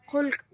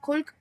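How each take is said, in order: First: خلق said as khalq, short a after kh, slow and deliberate; khalq meaning people. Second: خلق said as khulq, short u after kh, careful and clear; khulq meaning good manners. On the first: Urdu teacher showing the second reading, خلق as khalq. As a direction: say خلق as khalq, the a vowel, drawn out slowly. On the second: Urdu teacher showing the first reading, خلق as khulq. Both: Shown as a demonstration. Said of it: "جن کا تلفظ دو طرح سے ہوتا".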